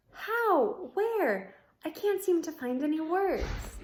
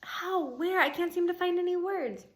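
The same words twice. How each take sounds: First: High, breathless astonishment; amazed. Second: High, astonished rereading; amazed. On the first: Ivan speechless seeing Julia and Bob, high and excited. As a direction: stammer out the questions in wonder. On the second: Ivan speechless at the reunion, high and amazed. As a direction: ask it again in wonder. Repeated line, read again. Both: Acted.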